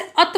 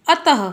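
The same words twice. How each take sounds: First: अत ending on a bare t, "at"; visarga dropped. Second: अतः said a-ta-ha; visarga sounded as ह. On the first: Teacher quoting some children's mistake, अत without the final ha. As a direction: say अत with nothing after the t. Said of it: "ये अत नहीं है". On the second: Teacher showing pupils the correct form, अतः with final ह sounded. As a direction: give अतः a clear final "ha". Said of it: "कुछ बच्चे इसे अत बोलते हैं". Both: Shown as a demonstration.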